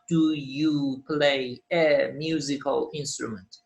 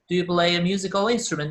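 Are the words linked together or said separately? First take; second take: separately; linked. First: Play and the next word are said separately. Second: Play links smoothly into the next word. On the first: The speaker calls it wrong. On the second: The speaker calls it right. "Linking sounds, don't forget them"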